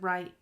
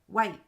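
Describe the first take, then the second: First: The word starts with an R sound. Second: The word starts with a W sound. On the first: The speaker calls it wrong. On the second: The speaker calls it right.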